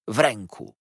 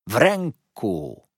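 First: "w ręku" said firmly, first take; emphatic. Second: "w ręku" drawn out, higher and louder; slow heavy emphasis. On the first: Heep boasting of his hold, "w ręku" firmly stressed. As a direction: press on "w ręku" without stretching it. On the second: Heep repeating his boast, "w ręku" slowly, heavily stressed. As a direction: stretch and hammer "w ręku". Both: A narrator's reading. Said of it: "Kończył pomału, z przyciskiem".

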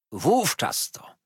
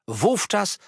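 First: "Wówczas" drawn out slowly, then a fall; slow stress on Wówczas. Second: "wówczas" repeated higher, hammered home; emphatic repeat. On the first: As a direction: lean on "Wówczas" deliberately. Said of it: "wówczas, a nie wcześniej". (powolny nacisk na "Wówczas") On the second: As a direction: nail "wówczas" as the exact moment. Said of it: "a nie wcześniej". (dobitnie powtórzone "wówczas") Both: A narrator's reading.

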